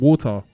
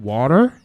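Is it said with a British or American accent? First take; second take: British; American. First: It is said with a British accent. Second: It is said with an American accent.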